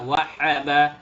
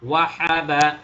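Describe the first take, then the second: The two takes are said the same way.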